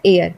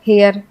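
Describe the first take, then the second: First: The word begins with a vowel, no h. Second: The word begins with an h sound. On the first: The speaker calls it right. "इसमें एच silent है" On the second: The speaker calls it wrong. "इसको बोलेंगे आप हेयर"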